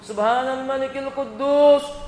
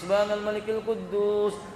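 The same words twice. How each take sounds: First: It is said noticeably louder than before. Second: It is said at the softest volume.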